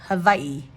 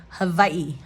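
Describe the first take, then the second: First: The middle consonant sounds like a V. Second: The middle consonant sounds like a V.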